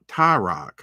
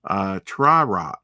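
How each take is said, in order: First: Ty-Rock said tie-rock, no R after the T; corrected name. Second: Tri-Rock said with an R after the T, tri-rock; mispronounced name. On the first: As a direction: correct yourself firmly to Ty-Rock. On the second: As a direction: slip into saying Tri-Rock by mistake. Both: Real, not acted. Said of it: "I'm sorry".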